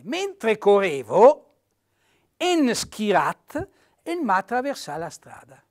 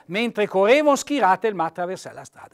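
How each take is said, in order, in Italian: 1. Dopo 'correvo' c'è una pausa e la E resta. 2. Dopo 'correvo' non c'è pausa e la E cade. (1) "se io metto la virgola, la lettera non può cadere" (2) "uno non legga senza pausa"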